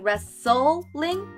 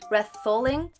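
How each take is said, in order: First: The s sound is clear and crisp. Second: The s sound is lisped with the tongue. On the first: The speaker calls it right. "instead of going wrestling" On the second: The speaker calls it wrong. "I was putting my tongue in wrestling"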